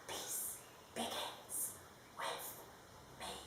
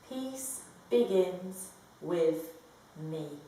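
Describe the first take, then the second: First: It is whispered. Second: It is spoken in a normal voice.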